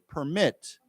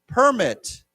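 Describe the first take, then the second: First: It is said with the verb pronunciation. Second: It is said with the noun pronunciation. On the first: It means to allow someone to do something. "why don't we say this as a 动词" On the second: It means a document or license. "and then as a 名词"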